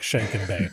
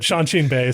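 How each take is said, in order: First: The first word sounds like 'Shanken'. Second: The first word sounds like 'Shaanxi'. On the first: The speaker calls it wrong. "it looks like Shanken Bay, which is uh, n- would not be a, a propitious name for a golf course" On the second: The speaker calls it right. "sounds a little better"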